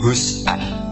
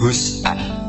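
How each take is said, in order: First: The middle sound is a glottal stop. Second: The middle sound is a glottal stop.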